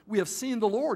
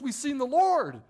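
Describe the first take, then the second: First: It is said in a plain, even tone. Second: It is said in an excited, lively tone.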